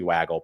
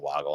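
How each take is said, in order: First: The first vowel sounds like in 'cat'. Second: The first vowel sounds like in 'dog'. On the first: The speaker calls it right. "it should be waggle" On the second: The speaker calls it wrong. "some people say woggle"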